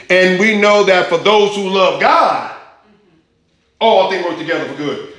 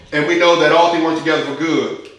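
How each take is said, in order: First: "for those who love God" pushed up and louder; stress on FOR THOSE. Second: Verse read with the stress on "all"; wrong emphasis. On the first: Preacher reading the ESV to his church leans on "for those who love God". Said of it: "So in the emphatic position is stressing the fact for those who love God". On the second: Preacher showing the King James reading puts no weight on "for those". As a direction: read "And we know that all things work together for good" plain, with no weight on "for those". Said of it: "The emphasis is not on there". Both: Shown as a demonstration.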